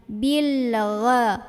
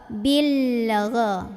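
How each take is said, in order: The two takes are said the same way.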